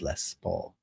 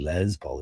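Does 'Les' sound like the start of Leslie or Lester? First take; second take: Lester; Leslie. First: Les is said like the start of Lester. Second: Les is said like the start of Leslie. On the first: The speaker calls it right. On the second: The speaker calls it wrong.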